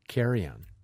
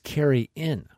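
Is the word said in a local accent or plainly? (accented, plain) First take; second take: accented; plain. First: It is said in a local accent, like carrion. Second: It is said plainly, with a clear 'in' ending. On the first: It mimics how the locals said it. "the way they said it with their accent" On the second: It is the intended word for a shared meal. "But it was carry-in"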